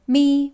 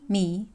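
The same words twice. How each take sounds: First: The syllable carries the first Mandarin tone. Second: The syllable carries the second Mandarin tone.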